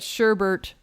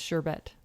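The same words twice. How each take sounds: First: The second syllable has an r sound. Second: The second syllable has no r sound. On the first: The speaker calls it wrong. "is not a word because there's not two R's in it" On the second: The speaker calls it right. "It's sherbet"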